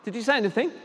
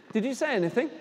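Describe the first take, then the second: No difference in how they are said.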